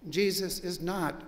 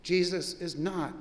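No difference in how they are said.

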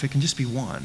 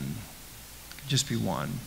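First: Said in the usual way. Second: Much softer and slow, letting it sink in; hushed slow repeat. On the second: Shown as a demonstration. Preacher repeating his warning to the congregation, hushed and slow. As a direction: drop to a near hush and slow right down.

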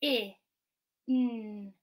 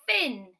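First: I and n as separate phonics sounds; short I, pause, then a held n; sounding out. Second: FIN blended into one loud word. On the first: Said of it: "we sound out the word". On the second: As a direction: join the sounds firmly into FIN. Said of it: "blend it back together". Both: Shown as a demonstration.

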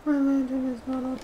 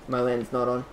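First: Much higher, put-on squeaky repeat; high silly voice. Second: Said in the usual way. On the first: Player noticing the lantern is off, silly high voice.

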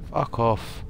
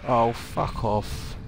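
First: Said in the usual way. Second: Slow, stretched exasperated curse; drawn-out groan. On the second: Real, not acted. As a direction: drag the words out in despair. Two zombies chase him.

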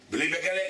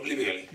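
First: בגלה lifted in a rising question; surprised checking question ending up on בגלה. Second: בגלה dropped low as a settled answer; matter-of-fact falling confirmation on בגלה; confirming. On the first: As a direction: ask it, pitch climbing on בגלה. Incredulous question, then confirming answer. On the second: Answer confirming the same words. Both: Acted.

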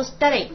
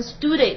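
First: "study" said carefully with the correct sounds; correct pronunciation. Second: "study" said the way learners often mispronounce it; mock learner's error on "study"; wrong pronunciation. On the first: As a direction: model "study" the right way, clearly. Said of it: "你如果平时发音总把它发成study的话". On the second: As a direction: demonstrate the common mistake on "study". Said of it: "总把它发成study". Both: Shown as a demonstration.

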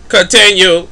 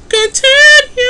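First: Said in the usual way. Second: "Continue" jumped way up into a high squeak; squeaky high continue. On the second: Shown as a demonstration. Voicing his Sims character's squeaky command. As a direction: repeat "Continue" in a squeaky falsetto.

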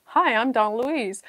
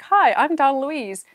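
First: Said in the usual way. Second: Mock announcer intro. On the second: Shown as a demonstration. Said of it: "I'll be like".

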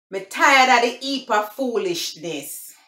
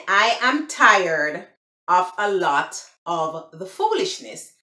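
First: Higher-pitched, emphatic Jamaican patois. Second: Careful, separated English "I am tired of a lot of the foolishness"; English translation. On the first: Vlogger demonstrating phrase number three, Jamaican patois. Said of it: "I'm gonna speak the Patois". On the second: Vlogger explaining the meaning, English "I am tired of a lot of the foolishness". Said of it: "It mean". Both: Shown as a demonstration.

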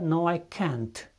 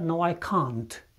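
First: Can't with the flat a of cat, kænt; American can't. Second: Can't with a long open a, kant; British can't. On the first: Teacher giving the American can't before the British one. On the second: Teacher contrasting British can't with American. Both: Shown as a demonstration. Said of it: "În engleza britanică".

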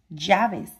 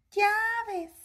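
First: Said in the usual way. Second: High squeaky puppet voice; Osito. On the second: Pretend. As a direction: repeat it as a little toy bear. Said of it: "¿Lo puedes decir, Osito?". (voz aguda de osito de juguete)

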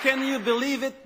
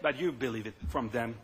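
First: CAN said higher, the word Can lifted; stress on can. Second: You stressed, the rest dropped lower and softer. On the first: Politician mocking rivals, stress on Can. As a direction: lean on Can, you believe it. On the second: Politician mocking rival ads, you stressed, voice dropping. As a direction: press on you, then let the line fall low. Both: Real, not acted. Rhetorical jab at attack ads.

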